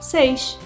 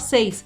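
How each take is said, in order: First: The final s is a shushing sh sound. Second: The final s is a plain hissing sound. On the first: "as pessoas chiam aí o S" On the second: "não vai falar seis"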